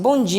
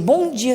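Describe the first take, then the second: First: It is said flatly, without feeling. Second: It is said warmly and sincerely.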